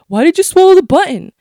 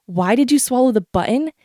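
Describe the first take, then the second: First: Higher, louder insistent asking; mocking question. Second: Said in the usual way. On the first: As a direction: parrot the nagging question. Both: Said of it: "Everyone keeps asking over and over".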